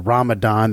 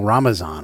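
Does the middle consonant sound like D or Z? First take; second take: D; Z. First: The middle consonant is a clear D sound. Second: The middle consonant slides into a Z sound. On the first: "instead of saying" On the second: "there's a little bit of a Z sound that slides in"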